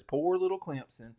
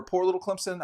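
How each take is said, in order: First: Lightly put-on Southern accent, poking fun; a hint of a Southern accent, teasing the coach's phrase. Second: Said in the usual way. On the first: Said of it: "I'm sorry for the Southern accent". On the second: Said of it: "sorry for the Southern accent".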